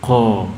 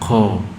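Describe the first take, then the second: The two takes are said the same way.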